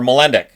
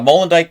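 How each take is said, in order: First: The last syllable has a short 'ih' vowel. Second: The last syllable has a long 'eye' vowel. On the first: The speaker calls it right. "I believe it's Molendyk, right?" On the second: The speaker calls it wrong. "Molendyke's how I produced, pronounced it for ages"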